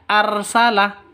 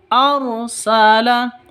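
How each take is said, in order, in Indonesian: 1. Huruf r diucapkan tipis dan ringan. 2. Huruf r diucapkan tebal dan berat. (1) "bukan arsala" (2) "Ro tafkhim harus ditebalkan"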